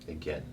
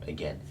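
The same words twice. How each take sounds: No difference in how they are said.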